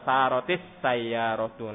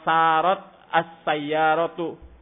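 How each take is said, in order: First: An 'i' vowel links the two words. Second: The words meet without an added linking vowel.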